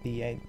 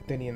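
First: The name starts with a long 'thee' sound. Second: The name starts with a short 'thin' sound. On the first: This is the proper way to say the name. The speaker calls it right. "I want to get the pronunciation right" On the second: This is how the name is said in the movie. The speaker calls it wrong. "they pronounce it Thinian the Great Sphinx in the movie, but that's actually mispronouncing it"

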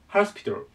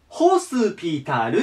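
First: The first syllable sounds like ha. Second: The first syllable sounds like ho. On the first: "発音が最初、歯なんです" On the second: "ローマ字読みをすると、ホスピタルって言います"

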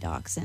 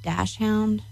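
First: The word does not sound like 'dash hound'. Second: The word sounds like 'dash hound'. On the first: This is how the speaker says it. "I say dachshund" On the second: This is how some other people say it. "I guess some people pronounce that dash hound"

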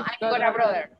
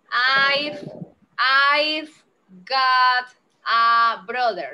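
First: The words 'got a' blend into 'gora'. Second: The words 'got a' are said separately. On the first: The speaker calls it right. "cuando se pegan hablando, se dice Gora" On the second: The speaker calls it wrong. "No, eso tiene que sonar como si fuera una sola palabra"

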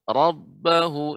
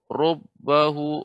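First: The first vowel sounds like an open 'a'. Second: The first vowel sounds like a rounded 'o'. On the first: The speaker calls it right. "tapi ra" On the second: The speaker calls it wrong. "Jangan rob"

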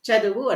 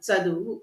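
First: The word begins with a palatal ch sound. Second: The word begins with a dental ts sound. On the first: The speaker calls it wrong. "చదువు అంటున్నారు" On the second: The speaker calls it right. "చదువు కాదు, చదువు"

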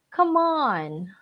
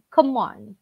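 First: Both words are said fully and clearly. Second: The words are run together like a contraction.

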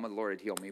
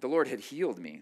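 First: It is said flatly, with little energy. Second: It is said forcefully, with lots of energy. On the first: The speaker calls it wrong. "I said that very passively" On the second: The speaker calls it right. "That's the right way to say that"

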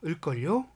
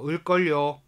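First: The pitch rises slightly at the end. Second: The pitch stays flat at the end. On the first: The speaker calls it right. "뒷부분을 살짝 올려줘야 되는 거예요" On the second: The speaker calls it wrong. "을걸요 이렇게 얘기하면은 안 돼요"

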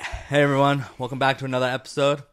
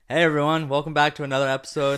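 First: The greeting is said flatly with little energy. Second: The greeting is said brightly with more energy. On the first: The speaker calls it wrong. "That sounded really boring, though" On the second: The speaker calls it right. "I got a little more energy"

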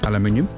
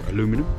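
First: It is said with a British pronunciation. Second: It is said with an American pronunciation.

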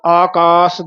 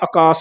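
First: Both 'aa' vowels are said long. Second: One 'aa' vowel is said short. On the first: The speaker calls it right. "ਦੋਵੇਂ ਕੰਨੇ ਬੋਲਨੇ ਆ" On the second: The speaker calls it wrong. "ਆਕਾਸ ਨਹੀਂ ਕਹਿਣਾ ਹੈ"

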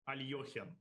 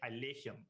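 First: The vowel after the L sounds like 'yo'. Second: The vowel after the L sounds like 'e'. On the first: This is how most people in Russia say it. "most Russians ... will say Alekhine" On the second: This is how the man himself said it. "not a Y-O, but an E sound"

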